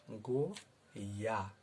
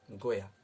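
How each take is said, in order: First: गोया drawn out very slowly as गो-या, syllable by syllable; split into syllables. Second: Said in the usual way. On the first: Shown as a demonstration. Teacher breaking गोया into syllables for students, very slow. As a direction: stretch गोया apart so each sound is heard. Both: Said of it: "इस शब्द को तोड़कर आपको बताया है गोया".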